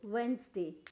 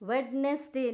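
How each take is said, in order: First: The d sound is left silent. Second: The d sound is pronounced. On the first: The speaker calls it right. "यहाँ पे भी डी silent है" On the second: The speaker calls it wrong. "वेडनेसडे नहीं"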